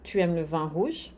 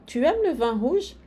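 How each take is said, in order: First: It is said with statement intonation. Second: It is said with question intonation. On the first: The speaker asserts that the listener likes red wine. "é uma afirmação" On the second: The speaker asks whether the listener likes red wine. "é uma pergunta"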